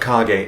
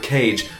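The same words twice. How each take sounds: First: Kage is said with a Japanese-style pronunciation. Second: Kage is said with an English-style pronunciation. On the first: The speaker calls it right. "it's correctly pronounced The Legend of Kage, as the Japanese name is Kage no Densetsu" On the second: The speaker calls it wrong. "When I was younger, I used to call this game"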